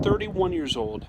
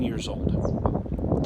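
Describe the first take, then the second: First: Thirty-one lifted high and punched, the rest falling away; stress on Thirty-one. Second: Said in the usual way. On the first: Shown as a demonstration. Telling viewers his age back then, stressing Thirty-one. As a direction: lean hard on Thirty-one, then drop.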